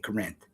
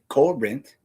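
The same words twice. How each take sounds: First: The stress is on the second syllable. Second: The stress is on the first syllable. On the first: The speaker calls it wrong. "You don't say Corinth" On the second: The speaker calls it right. "You say Corinth. Heavy emphasis on the co"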